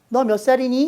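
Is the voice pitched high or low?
high. It is said in a high-pitched voice.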